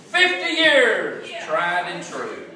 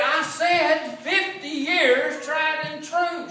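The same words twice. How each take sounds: First: Slow, high and loud call across the house; drawn-out shouted anniversary toast; yelling husband. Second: High, slow, sing-song shouted repeat; drawn-out sung shout to a deaf wife; louder repeat. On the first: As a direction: bellow it slowly to a wife in the other room. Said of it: "he yelled at her". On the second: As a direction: belt it out slower so she finally hears. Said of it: "He said". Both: Retold or imitated.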